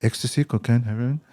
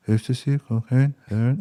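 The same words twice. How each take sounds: First: Imitated dealer listing drugs a bit more distinctly; lightly voiced hawker, offering item by item; street dealer, repeating. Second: Mumbled, blurred mock sales offer; unintelligible street dealer. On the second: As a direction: imitate a dealer slurring the list of drugs. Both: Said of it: "I can't understand what you're saying".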